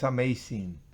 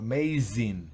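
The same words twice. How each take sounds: First: The middle consonant is a hissing unvoiced s. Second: The middle consonant is a buzzing voiced z. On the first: The speaker calls it wrong. "no es amazing" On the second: The speaker calls it right. "sino amazing ... vibra la Z"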